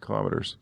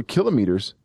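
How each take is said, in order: First: Kilometers as kuh-LOM-uh-ters; kilometers, leaning on the second syllable; stress on second syllable. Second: Kilometers as KIL-uh-mee-ters; imitated pronunciation. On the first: Shown as a demonstration. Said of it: "who says kilometers different than I do". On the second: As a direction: echo kilometers questioningly, stress on KIL, long MEE. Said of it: "says kilometers different than I do".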